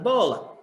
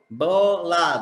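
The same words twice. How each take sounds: First: Said in the usual way. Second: "bola" split as bo, la; syllable by syllable. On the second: Shown as a demonstration. Teacher showing first-grade syllable division, "bola" syllable by syllable. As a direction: break "bola" into two separate beats. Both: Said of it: "separar as sílabas".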